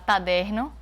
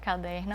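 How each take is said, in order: First: The first sound is a t sound. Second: The first sound is a k sound. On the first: A child swaps the sound by mistake. The speaker calls it wrong. "ela fala taderno" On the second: The standard form of the word. The speaker calls it right. "em vez de caderno"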